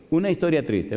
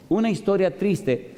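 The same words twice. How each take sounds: First: Said in the usual way. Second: Higher and slow, leaning on una; slow emphatic announcement. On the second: Shown as a demonstration. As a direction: announce Una historia triste slowly, stressing una with a falling tune.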